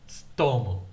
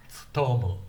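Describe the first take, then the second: The two takes are said the same way.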